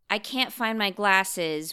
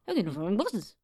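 First: It is said in a plain accent. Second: It is said in an attempted brogue.

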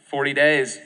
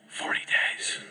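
First: It is said with a mocking, ironic tone. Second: It is said quietly in a whisper. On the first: He doubts the city will really be destroyed. "Or do you think maybe it was sarcastic?" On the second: He hoped nobody would hear the warning. "I kind of think it might have been a whisper"

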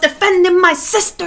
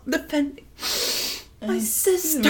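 First: It is said in a bold, defiant way. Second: It is said in a meek, victim-like way. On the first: The act was justified and owned proudly. "back in 2017, she was like, yes!" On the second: The speaker is presenting herself as a victim. "Because you're a victim"

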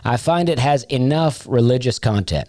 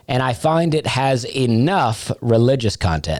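First: The word enough is not emphasized. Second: The word enough is strongly emphasized.

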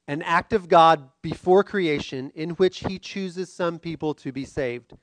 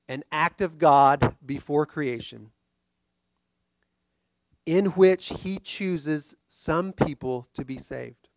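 First: It is said at normal speed. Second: It is said slowly, in chunks.

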